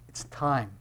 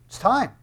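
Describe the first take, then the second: First: Understated prompting. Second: High, insistent prod; impatient urging. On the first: Brothers telling Jesus it is time, quiet prompting. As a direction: drop it in quietly. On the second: Brothers prodding Jesus to begin, high insistent urging. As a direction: push him with a raised pitch. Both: Acted. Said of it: "Jesus' brothers walk up to Jesus and they go".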